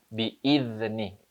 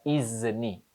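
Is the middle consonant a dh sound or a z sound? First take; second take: dh; z. First: The middle consonant is a soft dh. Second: The middle consonant is a buzzing z. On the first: The speaker calls it right. "Tapi idh. Dha" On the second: The speaker calls it wrong. "Bukan izni. Bukan z"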